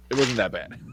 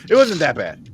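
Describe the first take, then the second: First: Said in the usual way. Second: Louder, higher insistence; emphatic. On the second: Real, not acted. Defending the movie to friends, insistent. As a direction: insist it really wasn't bad. Repeats line, first take pushed.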